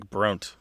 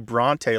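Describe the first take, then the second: First: The final vowel is silent. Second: The final vowel is pronounced. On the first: The speaker calls it wrong. "like Bront" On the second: The speaker calls it right. "You don't say Bronte"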